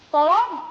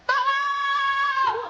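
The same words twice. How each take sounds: First: It is called out louder, but not full. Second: It is shouted at full volume.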